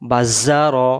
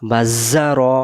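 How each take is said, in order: No difference in how they are said.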